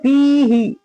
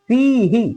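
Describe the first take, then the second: First: The final syllable is drawn out long. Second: The final syllable is short and quick. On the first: The speaker calls it wrong. "ऐसे नहीं पढ़ेंगे" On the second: The speaker calls it right. "फी को खींचेंगे, हा को जल्दी"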